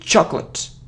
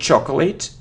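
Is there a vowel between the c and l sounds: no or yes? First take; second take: no; yes. First: The c and l sounds run together. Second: A vowel separates the c and l sounds. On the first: The speaker calls it right. "it's chocolate... So it's like cl" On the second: The speaker calls it wrong. "It isn't chocolate. No"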